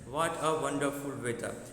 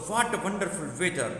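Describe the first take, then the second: First: It is said flatly, without feeling. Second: It is said with surprise and happiness. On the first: It is a plain statement. The speaker calls it wrong. "तो ये हम कहेंगे कि flat statement हुआ" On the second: The speaker feels surprised and happy. The speaker calls it right. "आपकी जो tone होनी चाहिए वैसी होनी चाहिए कि आप एक सरप्राइज फील कर रहे हो"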